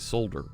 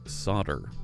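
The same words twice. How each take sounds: First: It is said with a European pronunciation. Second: It is said with an American pronunciation. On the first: "I know European folks say solder" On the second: "here in the States, we say solder"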